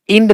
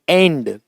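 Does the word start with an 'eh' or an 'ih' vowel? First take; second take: ih; eh. First: The word starts with an 'ih' vowel. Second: The word starts with an 'eh' vowel. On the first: The speaker calls it wrong. "इंड नहीं होता" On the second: The speaker calls it right. "यहां इसमें ध्वनि ए की है"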